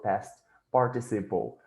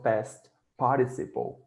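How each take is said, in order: First: It is said with a standard English pronunciation. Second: It is said with a Cameroonian English pronunciation. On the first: This is the usual standard way to say it. "instead of past participle" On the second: This is how a speaker from Cameroon says it. "he would speak, for example, past participle"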